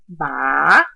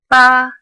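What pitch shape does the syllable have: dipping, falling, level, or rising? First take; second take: dipping; level. First: The pitch dips low then rises again. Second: The pitch stays high and level. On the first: "starts low, dips, and goes back up" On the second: "a flat tone that is high and level"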